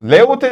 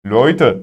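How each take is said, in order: First: "Leute" said high, letter by letter; wrong "Leute". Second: "Leute" as "loyte", low and falling; correct "Leute". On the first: Teacher showing class the wrong "Leute". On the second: Teacher giving students the right "Leute". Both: Shown as a demonstration. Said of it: "Leute değil".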